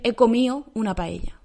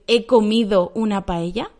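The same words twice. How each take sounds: First: The d in comido is dropped. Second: The d in comido is clearly pronounced. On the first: "¿Dónde está la D? No está" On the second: "voy a decir he comido una paella. Quizá no"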